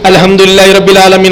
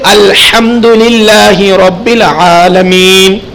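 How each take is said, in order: First: It is recited quickly with a light chest h. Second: It is recited carefully with a throaty h. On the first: The speaker calls it wrong. "अगर आप तेजी से बोलोगे" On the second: The speaker calls it right. "तवज्जो के साथ पढ़ोगे"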